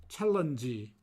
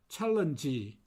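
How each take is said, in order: No difference in how they are said.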